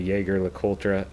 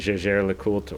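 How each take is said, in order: First: The name is said the American way. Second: The name is said the French way.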